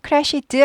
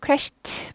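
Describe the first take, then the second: First: The ending is not a t sound. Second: The ending is a t sound. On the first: The speaker calls it wrong. "crashed 아니고" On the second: The speaker calls it right. "트 발음이 난다"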